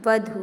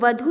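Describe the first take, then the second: First: The final u vowel is drawn out long. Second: The final u vowel is short. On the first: The speaker calls it right. "बड़ी यू की मात्रा होती है जिसे आप हम खींच के कहते हैं" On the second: The speaker calls it wrong. "वधु नहीं होता"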